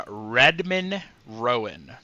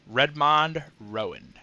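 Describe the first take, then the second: First: Redmond said with a reduced "-mun" ending; pronunciation variant. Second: Redmond said with a full open "-mond" ending; alternative pronunciation. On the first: Naming his first son, Redmond pronounced RED-mun. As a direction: say Redmond as RED-mun, second vowel swallowed. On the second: Repeating the son's name, Redmond pronounced RED-mahnd. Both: Shown as a demonstration. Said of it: "I don't know how to pronounce it".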